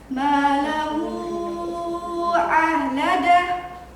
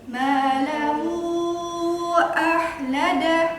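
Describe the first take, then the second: First: The long vowel is held for five beats. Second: The long vowel is held for four beats. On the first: "Kalau lima ketukan" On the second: "Itu empat ketukan"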